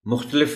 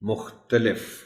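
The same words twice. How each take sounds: First: The t has no clear a vowel after it. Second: The t has a clear a vowel after it. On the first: The speaker calls it wrong. "मुख्तलिफ नहीं" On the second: The speaker calls it right. "यहाँ ते पर ज़बर को नुमाया करके पढ़ना पड़ता है"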